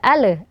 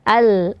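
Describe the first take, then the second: First: The l is followed by a bouncing vowel. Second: The l ends cleanly with no added vowel. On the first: The speaker calls it wrong. "jangan sampai ada ale, ale, ada pantulan" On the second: The speaker calls it right. "hamzah bertemu dengan lam sukun"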